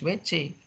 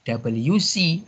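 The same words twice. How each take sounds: First: The letters get their Indonesian names. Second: The letters get their English names. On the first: "dibaca Indonesia, ya harus W C" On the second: "Kalau dibaca dengan bahasa asing, ya W C"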